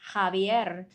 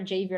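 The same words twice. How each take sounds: First: The name is pronounced the Spanish way. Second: The name is pronounced the English way. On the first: "Javier is how it's pronounced in Spanish" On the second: "But if you prefer Javier"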